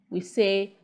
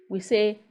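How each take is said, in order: The two takes are said the same way.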